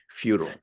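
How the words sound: It is said the American way.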